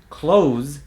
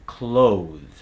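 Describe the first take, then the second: First: "Clothes" said as "cloze"; Z substitution. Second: "clothe" ending in a held TH; final voiced TH. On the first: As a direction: end "Clothes" on Z with no TH. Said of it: "let's talk about the Z substitution". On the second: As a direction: finish "clothe" tongue between teeth. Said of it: "is gonna become". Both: Shown as a demonstration.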